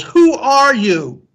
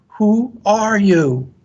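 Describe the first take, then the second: First: High, slow, drawn-out yell; curious yell. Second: High, slow echo of a yell; echoed answer. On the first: Son calling to the unknown voice, curious yell. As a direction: call it out across the mountains. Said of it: "he yells". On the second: Mountain voice answering the son, echoed call. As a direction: call it back stretched out, like an echo. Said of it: "He receives the answer". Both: A narrator's reading.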